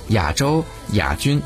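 亚 is said the Taiwanese way. "在台湾就会被读作"

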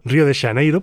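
The name is pronounced with Galician sounds. "podríamos pronunciarlo perfectamente en gallego"

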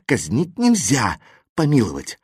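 There is a pause after the second word. There is no execution and a pardon is granted. The speaker calls it right. "А если поставить запятую после слов «казнить нельзя»"

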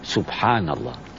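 It is said in a puzzled, surprised tone. Something strange is hard to believe. "yang kedua kalau ada hal yang aneh. Loh, kok bisa begitu ya?"

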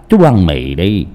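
It is spoken with a Hong Kong accent. "Đổi giọng thành tiếng Hồng Kông"

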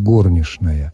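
It follows the old Moscow theatre norm. The speaker signals a traditional, theatrical norm. "на старомосковскую норму, произносите"

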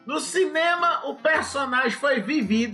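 It is spoken in a put-on regional accent.

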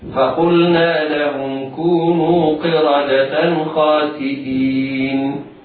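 The recitation stops on the last word. "أما لو وقفنا"

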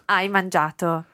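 The voice falls at the end. It states that the person has eaten. "As a statement"

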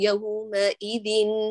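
The pitch stays level through the word. The speaker calls it right. "فحافظي على طبقة الصوت"

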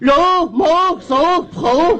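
The words are slurred as if thick-tongued.

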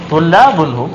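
The pitch rises at the end, like a question. It asks whether they are students. The speaker calls it right. "dibacanya dengan bentuk bertanya, dengan nada bertanya"

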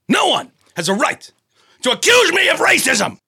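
It is said with strong anger.

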